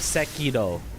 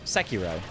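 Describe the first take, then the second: First: The r is a light, not fully voiced sound. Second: The r is a plain English r sound. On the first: "the R sound is uh, not rolled, but like not fully voiced ... would be the the true pronunciation" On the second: "close enough is Sekiro"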